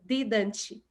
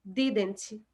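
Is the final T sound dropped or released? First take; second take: released; released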